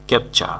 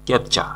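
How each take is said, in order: Both takes have the same delivery.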